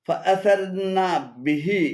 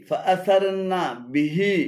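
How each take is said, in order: No difference in how they are said.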